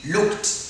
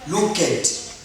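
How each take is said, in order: First: The word ends with a T sound. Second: The word ends with a D sound. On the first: The speaker calls it right. "Try to pronounce it as looked. T" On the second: The speaker calls it wrong. "Don't say looked"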